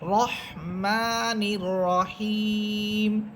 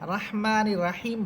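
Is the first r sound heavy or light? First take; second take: heavy; light. First: The r is heavy with a full, rounded vowel. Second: The r is light with a long thin vowel. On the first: The speaker calls it right. "র হরফ এখানে মোটা, এই জন্য আপনাকে আকার ছাড়া পড়তে হবে" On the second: The speaker calls it wrong. "এটা ভুল হবে"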